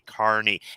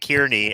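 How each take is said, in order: First: The name sounds like the word carny. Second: The name is pronounced the way it is spelled. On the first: The speaker calls it right. "it's actually Carney" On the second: The speaker calls it wrong. "if you're pronouncing it the way it's spelled"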